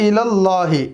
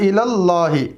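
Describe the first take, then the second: Both takes have the same delivery.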